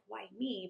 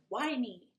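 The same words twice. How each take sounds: First: It sounds sad and self-pitying. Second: It sounds angry and mad.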